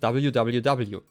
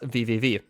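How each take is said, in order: First: The letters are read with English letter names. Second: The letters are read with German letter names. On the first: The speaker calls it wrong. "if you say like a whole link in English" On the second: The speaker calls it right. "But in Germany, it's just www"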